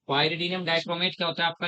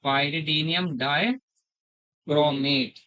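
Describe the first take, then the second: First: Said in the usual way. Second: "pyridium dichromate" stretched out, every syllable drawn long; slow dictation. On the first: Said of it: "normal-speed recap of the name". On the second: Shown as a demonstration. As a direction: dictate "pyridium dichromate" slowly so students can write. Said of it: "teacher dictates reagent name slowly". ("pyridium dichromate" बहुत धीरे-धीरे खींचकर)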